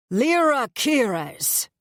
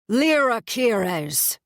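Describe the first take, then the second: First: Slow, slurred, bellowing high call; drunken yell. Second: Slow, slurred, loud high call; drunken bellow. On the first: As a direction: yell her name drunk and dragged out. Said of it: "a voice yells, a drunken, slurred voice". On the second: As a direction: bellow her name, dragged out. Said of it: "he bellows". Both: A narrator's reading.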